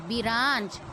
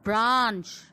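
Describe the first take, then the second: First: A short vowel separates the b and r. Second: The b and r are joined without vowel. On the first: The speaker calls it wrong. "This is wrong pronunciation" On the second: The speaker calls it right. "मेरे साथ बोलो"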